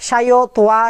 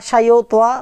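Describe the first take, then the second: Both takes have the same delivery.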